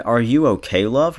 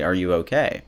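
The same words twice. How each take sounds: First: Quoting him with love rising high at the end; creepy pet name. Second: Said in the usual way. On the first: Retold or imitated. Vlogger mocking a stranger's flirty text, love swooping up. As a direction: lean on love so it sounds too familiar. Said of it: "so maybe don't say it like that". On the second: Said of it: "How about you just say".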